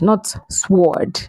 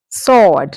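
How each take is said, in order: First: The W sound is pronounced. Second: The W sound is silent. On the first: The speaker calls it wrong. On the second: The speaker calls it right. "the W sound here is silent"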